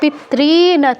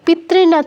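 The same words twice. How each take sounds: First: The ri vowel is said long. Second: The ri vowel is said short. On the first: The speaker calls it right. "একটু দীর্ঘ করতে হবে" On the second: The speaker calls it wrong. "পিতৃনাথ বললে কিন্তু হবে না"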